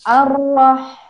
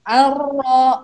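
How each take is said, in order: First: The lips stay still without rounding on the vowel. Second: The lips move forward and round on the vowel. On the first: The speaker calls it right. "Tapi yang benar adalah ar-roh" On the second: The speaker calls it wrong. "Ar-ro itu salah karena dia sudah bergerak"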